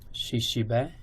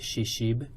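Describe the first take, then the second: First: The word ends with a final vowel sound. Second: The word ends on a consonant, vowel dropped. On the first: "Shishibe is a duck" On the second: "in some communities they just say Shishib"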